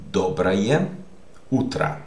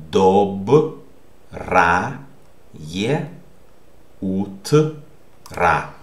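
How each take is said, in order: First: Said in the usual way. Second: Dobraje utra broken into separate syllables with pauses. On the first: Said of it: "which means good morning". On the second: Shown as a demonstration. Teacher reading the morning greeting for learners, syllable by syllable. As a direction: sound out dobraje utra slowly, piece by piece. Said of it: "How do you pronounce this?".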